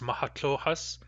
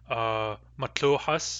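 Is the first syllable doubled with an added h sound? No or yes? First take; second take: Yes; No. First: The first syllable is doubled with an h. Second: The first syllable is said once, plainly. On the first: This is the Wild Woman character's form of the name. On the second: This is the ordinary form of the name.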